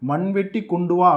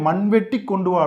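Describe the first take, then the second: First: The word is said smoothly without extra emphasis. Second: The word is split and 'vetti' is pressed hard. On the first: Bring the spade. "மண்வெட்டியை எடுத்துட்டு வாடா" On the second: Dig up soil and bring it. "கொஞ்சம் அழுத்தி சொல்லி"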